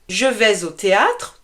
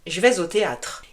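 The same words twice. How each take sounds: First: The pronoun je is said in full. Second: The pronoun je is shortened. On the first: This is the formal form. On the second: This is the informal spoken form.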